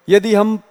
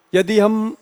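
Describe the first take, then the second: No difference in how they are said.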